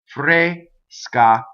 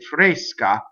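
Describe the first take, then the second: First: The syllables are split apart before the S. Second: The syllables run together with a hissed S. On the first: This is how it is thought of for singing. "When you sing, you have to separate" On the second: This is how it is said in speech. "When you speak, you can say fresca, and you can kind of hiss that S"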